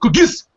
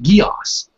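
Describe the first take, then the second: First: The word is said quickly in one syllable. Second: The word is said slowly in two syllables. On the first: This is how it sounds in the original Japanese. The speaker calls it wrong. "the Japanese say it real fast" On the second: This is how the English dub says it. The speaker calls it right. "they pronounced it like Gios"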